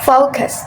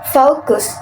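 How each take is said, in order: First: "focus" said the American way; American-accented "focus"; American pronunciation. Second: "focus" said the British way; British-accented "focus"; British pronunciation. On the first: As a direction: give "focus" an American gliding O. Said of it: "In American". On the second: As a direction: give "focus" a British gliding O. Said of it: "In British". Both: Shown as a demonstration.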